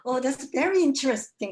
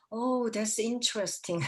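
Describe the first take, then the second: First: Very hit higher and louder, slow; slow, higher, louder mock-admiring professor; emphatic very interesting. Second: Slow, drawn-out Oh, that's interesting; slow mock-admiring English; professor's slow "interesting". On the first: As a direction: lean hard on very, stretch it out. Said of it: "그분은". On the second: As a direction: savour each word like a polite professor. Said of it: "이렇게 말씀하세요".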